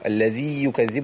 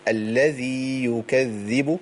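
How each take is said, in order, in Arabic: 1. حرف المد يُدغم في صوت الياء التالية. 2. حرف المد يُمدّ ويبقى منفصلاً عن الياء.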